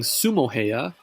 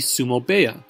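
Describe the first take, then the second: First: The second word begins with an H sound. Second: The second word begins with a B sound. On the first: The speaker calls it wrong. "instead of saying Sumo Heya" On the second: The speaker calls it right. "the correct pronunciation would be Sumo Beya"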